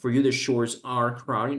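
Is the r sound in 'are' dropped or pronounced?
pronounced. The r in 'are' is pronounced, American style. The speaker calls it wrong.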